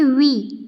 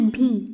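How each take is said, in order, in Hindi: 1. इसकी शुरुआत v ध्वनि से होती है। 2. इसकी शुरुआत साँस वाली bh ध्वनि से होती है। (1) "वी ना कि भी" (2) "ना कि भी"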